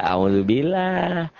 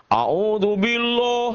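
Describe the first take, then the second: First: "A'udzubillah" slow, ending in open "-lah"; slow, thin-ended "A'udzubillah"; correct thin ending. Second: "A'udzubillah" high and slow, ending "-loh"; wrong thick ending. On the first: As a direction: say "A'udzubillah" drawn out with light L and A. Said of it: "Oh, nggak bisa". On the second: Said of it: "Jadi nggak". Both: Shown as a demonstration.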